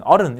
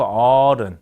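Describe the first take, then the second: First: Said in the usual way. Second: "어른" with the 어 held long; 장모음 어. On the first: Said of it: "이렇게 하지 않고". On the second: Shown as a demonstration. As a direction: stretch the first syllable of "어른". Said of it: "우리가 좀 길게 발음하는". ("어른"의 첫 모음 "어"를 길게)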